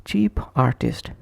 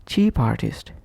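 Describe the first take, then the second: First: "Cheap artist" with a break after p; separate words. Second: "cheap artist" run together as chee-partist; consonant linked to vowel. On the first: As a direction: keep "Cheap" apart from "artist". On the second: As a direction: push the p onto "artist". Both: Shown as a demonstration. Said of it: "is pronounced as".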